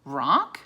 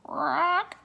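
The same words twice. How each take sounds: First: Puzzled, questioning repeat; surprised question. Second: High croaking raven voice. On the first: Annie puzzled by the raven's name, surprised. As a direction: echo the name in disbelief. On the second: Raven answering Annie with a high croak. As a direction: croak the name like a bird. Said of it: "the raven croaked". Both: Acted.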